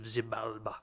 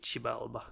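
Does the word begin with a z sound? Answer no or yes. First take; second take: yes; no. First: The word begins with a z sound. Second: The word does not begin with a z sound. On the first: "I'm going with Z at the moment" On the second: "but it's probably more likely a Xibalba"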